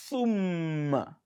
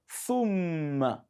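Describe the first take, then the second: No difference in how they are said.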